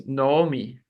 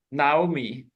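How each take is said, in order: First: Naomi said as "no-oh-mee"; Hebrew pronunciation. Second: Naomi said as "nah-oh-mee" or "now-mee"; English pronunciation. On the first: Teacher correcting to the Hebrew name, Hebrew pronunciation. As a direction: start Naomi with a long "oh". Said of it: "in Hebrew it's Naomi". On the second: Teacher quoting the familiar name before correcting, English pronunciation. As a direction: open the first vowel of Naomi to "ah". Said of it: "it's actually in Hebrew it's Naomi". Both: Shown as a demonstration.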